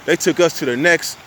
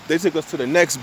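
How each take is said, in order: Both takes have the same delivery.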